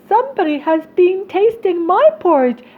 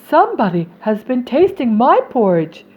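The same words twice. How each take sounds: First: It is said in a small voice. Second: It is said in a medium-sized voice. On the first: "cried the little wee bear in his little wee voice" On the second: "said the middle-sized bear in her middle-sized voice"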